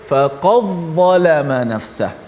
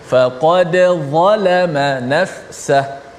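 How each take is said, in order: First: The d sound blends into the following z. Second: The d is pronounced clearly with a slight echo. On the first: It follows a different reading tradition. "Sini mereka baca" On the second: It follows the local standard reading tradition. "kita tetap baca secara izhar... kena bunyi qalqalah"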